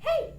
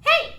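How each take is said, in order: First: It is light and airy head voice. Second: It is stronger, less airy, with chest voice. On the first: "I'm taking my head voice" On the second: "I'm mixing a little bit of my chest voice, ... it's stronger and it's not as airy"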